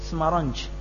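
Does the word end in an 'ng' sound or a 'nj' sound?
nj. The word ends in a 'nj' sound.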